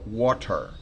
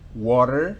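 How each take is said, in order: First: Water is said the northeastern or English way. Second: Water is said the most common American way. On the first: This is how it is said in the US Northeast and England. "en la costa noreste de los Estados Unidos y en, eh, en Inglaterra no es water, sino water" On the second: This is the usual pronunciation in most areas. "Puede ser water, que es, diría yo, la más habitual"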